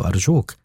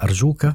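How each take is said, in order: First: "أرجوك" begged with a rising tune, lightly mimicking a girl; a hint of Dubora pleading on "أرجوك"; imitating Dubora. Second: Said in the usual way. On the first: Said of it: "وقال مقلدا صوتها".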